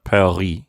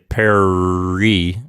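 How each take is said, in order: First: The R is gargled in the throat. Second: The R is an English-style tongue R. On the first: The speaker calls it right. "Say the gargling kind of R, like Paris" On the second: The speaker calls it wrong. "you don't say Paris"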